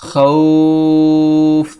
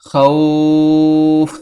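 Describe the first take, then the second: No difference in how they are said.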